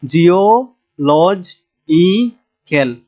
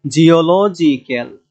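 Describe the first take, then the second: First: geological very slowly, chopped into parts; drawn-out dictation of geological; syllable by syllable. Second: geological with লজ punched; slow geological, weight on লজ; stress third from end. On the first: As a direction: break geological apart with a pause after each piece. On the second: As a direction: lean on লজ in geological, falling after it. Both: Shown as a demonstration. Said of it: "এখানেও তিন নাম্বারে এসে আমাদের".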